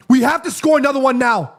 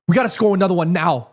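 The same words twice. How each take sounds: First: "score" pushed louder and higher; insistent. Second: Said in the usual way. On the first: Real, not acted. Fan insisting the team must score again, louder with stress on "score". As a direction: drive the point home on "score".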